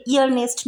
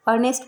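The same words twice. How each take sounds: First: ईयरनेस्ट starting with a sounded ee; wrong pronunciation. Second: Said in the usual way. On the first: Shown as a demonstration. Teacher showing the mistaken ईयरनेस्ट with the e voiced. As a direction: open ईयरनेस्ट on a clear ee-yar. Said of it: "ईयरनेस्ट नहीं बोलेंगे". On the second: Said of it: "इसको अर्नेस्ट बोलेंगे".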